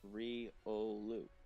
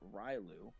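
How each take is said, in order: First: The name is said in three syllables. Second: The name is said in two syllables. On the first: The speaker calls it right. "I correct her every time it's Riolu" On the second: The speaker calls it wrong. "screws up the name Riolu by saying Rylu"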